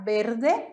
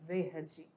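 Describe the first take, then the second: First: The first sound is a b sound. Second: The first sound is a v sound. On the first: This is the Spanish pronunciation. "em espanhol V tem som de B. Então vai ficar verde" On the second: This is the Portuguese pronunciation. "ao invés de verde"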